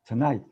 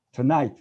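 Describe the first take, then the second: No difference in how they are said.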